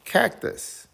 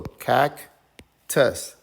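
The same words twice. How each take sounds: First: Said in the usual way. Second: Cactus as CAC, long pause, TUS; very slow cactus, two stressed beats; split into syllables. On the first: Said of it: "The word is cactus". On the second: Shown as a demonstration. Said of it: "Let's read this part".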